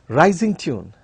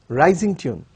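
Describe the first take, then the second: Both takes have the same delivery.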